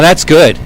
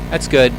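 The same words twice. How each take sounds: First: It is said warmly and with enthusiasm. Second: It is said flatly and without enthusiasm. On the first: The speaker truly likes it. "you would get a very positive feeling" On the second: The speaker does not really like it. "you would not get such a positive feeling"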